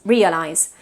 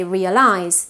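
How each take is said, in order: First: "realize" as "REE-uh-lize"; English front-stressed "realize"; initial stress. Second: "realize" as "rea-LIZE"; learner's end-stressed "realize"; final stress. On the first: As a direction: lean on the first syllable of "realize". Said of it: "realize with initial stress". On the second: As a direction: lean on the last syllable of "realize". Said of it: "we tend to say realize". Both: Shown as a demonstration.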